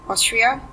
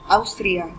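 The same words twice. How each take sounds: First: It is said with English pronunciation. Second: It is said with Spanish pronunciation.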